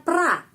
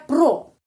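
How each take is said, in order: First: The vowel is reduced to an a sound. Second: The vowel is a full o sound. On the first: "tapi bacanya pra" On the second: "awalan kata kerja pro"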